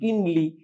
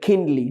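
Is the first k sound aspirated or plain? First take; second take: plain; aspirated. First: The k is plain, without a puff of air. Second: The k has a strong puff of air. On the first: "যেমন কিনলি" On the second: "এটা হয়ে যাবে খিনলি"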